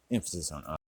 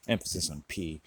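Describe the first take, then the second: First: I said with weight; stress on I. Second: P said with weight; stress on P. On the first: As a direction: lean on the letter I. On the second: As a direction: lean on the letter P. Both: Shown as a demonstration.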